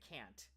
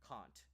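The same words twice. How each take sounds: First: It is said in an American accent. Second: It is said in a British accent. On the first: "Americans say can't" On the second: "but but we say can't"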